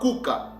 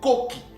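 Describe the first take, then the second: First: The word is said with u and a vowels. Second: The word is said with o and i vowels. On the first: The speaker calls it wrong. "ça ne se lit pas Kuka" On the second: The speaker calls it right. "c'est Koki"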